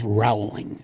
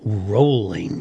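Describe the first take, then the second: First: The first syllable does not sound like 'rolling'. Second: The first syllable sounds like 'rolling'. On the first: The speaker calls it wrong. "not Rowling. It's a common mistake" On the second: The speaker calls it right. "as in rolling along, as in row, row, row your boat"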